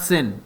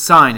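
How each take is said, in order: First: The word rhymes with pin. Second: The word rhymes with pine. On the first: The speaker calls it wrong. "It's not sin" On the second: The speaker calls it right. "it's sine. It's pronounced sine"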